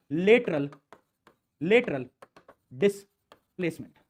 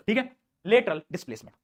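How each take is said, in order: First: lateral displacement drawn out slowly, word by word with pauses; term spelled out slowly. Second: Said in the usual way. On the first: Shown as a demonstration. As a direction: dictate lateral displacement slowly so students copy it.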